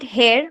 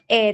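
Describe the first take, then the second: First: The word begins with an h sound. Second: The word begins directly with a vowel. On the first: The speaker calls it wrong. "We don't call it hair" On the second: The speaker calls it right. "We call it air only"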